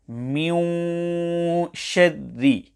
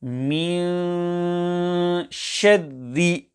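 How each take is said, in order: First: مِنْ with rounded lips, a waw sound creeping into the held nasal. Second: مِنْ with relaxed lips and a long, pure nasal hum; lips unrounded. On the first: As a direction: recite مِنْ شَدِّ wrongly, circling the lips on the long hum of مِنْ. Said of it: "this will create a waw sound". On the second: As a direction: recite مِنْ شَدِّ with the mouth in natural position, no waw sound in مِنْ. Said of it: "the correct method of recitation will". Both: Shown as a demonstration.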